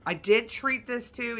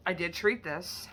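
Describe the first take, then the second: First: Slow, louder, "treat" leaned on; "treat" emphasized, drawn out; stress on treat. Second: Said in the usual way. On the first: Shown as a demonstration. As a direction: hit the word "treat" deliberately.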